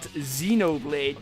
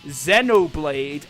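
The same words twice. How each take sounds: First: The name is said a non-British way. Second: The name is said the British way. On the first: The speaker calls it wrong. "and not Xenoblade" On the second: The speaker calls it right. "we pronounce it as Xenoblade ... because that's how we call it in the U K"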